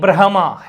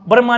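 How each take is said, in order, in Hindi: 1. h ध्वनि m ध्वनि से पहले आती है। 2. m ध्वनि h ध्वनि से पहले आती है। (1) "है पहले फिर मैं" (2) "नहीं"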